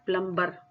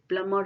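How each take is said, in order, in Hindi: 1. "m" के बाद "b" की आवाज़ बोली जाती है। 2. "m" के बाद "b" की आवाज़ साइलेंट होती है। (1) "ये प्लम्बर नहीं होता" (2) "ये प्लमर होता है"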